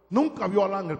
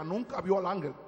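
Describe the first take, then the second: First: "nunca" hit louder; stress on nunca. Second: Said in the usual way. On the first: Real, not acted. Preacher repeats that the prophet missed the angel, stress on "nunca". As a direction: punch "nunca" hard, then ease off.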